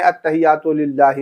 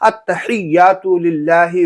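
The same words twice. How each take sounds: First: The phrase is said quickly and rushed. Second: The phrase is said slowly with pauses. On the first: The speaker calls it wrong. "लोग क्या कहते हैं" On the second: The speaker calls it right. "आराम आराम से ठहर ठहर करके"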